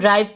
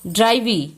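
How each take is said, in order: First: The word ends on the v sound. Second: The word ends with an added ee vowel. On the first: The speaker calls it right. "इसे हम ड्राइव पढ़ रहे हैं" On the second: The speaker calls it wrong. "ड्राइवी तो नहीं पढ़ रहे"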